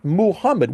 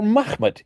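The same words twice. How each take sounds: First: Muhammad slow, in three syllables, moo-HAM-mad; full-vowel pronunciation. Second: Muhammad said as MAKH-mad, throaty kh; two-syllable pronunciation. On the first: Lecturer rejecting today's name, Muhammad pronounced slowly with all three vowels. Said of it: "I'm emphasizing the u, a, a". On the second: Lecturer giving the seventh-century name, Muhammad pronounced MAKH-mad. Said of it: "how do you pronounce that word". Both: Shown as a demonstration.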